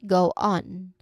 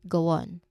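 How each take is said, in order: First: The two words are said separately, without a glide. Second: A light W glide joins the two words. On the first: "when said separately, ... Two clear, distinct words" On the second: "you often hear a tiny W sound inserted, making it sound like"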